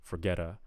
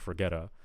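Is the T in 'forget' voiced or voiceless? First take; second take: voiced; voiced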